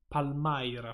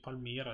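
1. La vocale centrale è un dittongo 'eye'. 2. La vocale centrale è un semplice suono 'ee'. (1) "perché c'è la Y in mezzo" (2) "È il nome che dici?"

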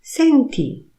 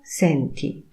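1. Wypowiedziano to z rozkazującą intonacją. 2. Wypowiedziano to z prostą, oznajmującą intonacją. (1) "posłuchaj, słuchaj" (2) "ty słyszysz, czujesz"

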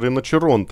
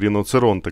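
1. Средний согласный — звук 'ch'. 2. Средний согласный — звук 'ts'. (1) "правильно все же произносится Риночеронте" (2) "а не Риноцеронте, как я говорил"

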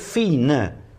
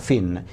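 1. La parola finisce con una vocale finale debole, appena accennata. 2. La parola finisce netta sulla consonante n. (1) "Invece no, non è muta" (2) "la E è muta, per cui non la devo pronunciare, diventa fin"

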